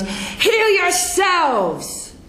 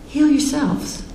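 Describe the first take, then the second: First: It is said loudly with an angry tone. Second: It is said gently with a calm tone. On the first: The speaker is dismissing the crowd in frustration. The speaker calls it wrong. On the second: The listeners are able to heal themselves. The speaker calls it right.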